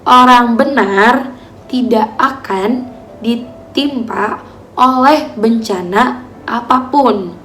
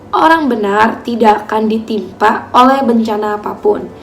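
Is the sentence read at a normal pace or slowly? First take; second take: slowly; normal. First: It is read slowly. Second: It is read at a normal pace.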